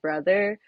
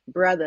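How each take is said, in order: First: The final r sound is pronounced. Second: The final r sound is dropped. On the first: "instead of brother" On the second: "R-lessness ... he might say like brother"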